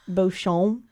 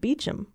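First: The name is said as written, Beauchamp. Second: The name is said as Beecham. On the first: "one pronounced it like Beauchamp" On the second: "the other one pronounced it Beecham"

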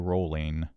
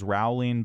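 First: The name rhymes with bowling. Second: The name does not rhyme with bowling. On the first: The speaker calls it right. "it rhymes with bowling" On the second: The speaker calls it wrong. "For a long time, I thought this was Rowling"

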